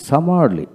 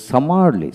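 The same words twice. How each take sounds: The two takes are said the same way.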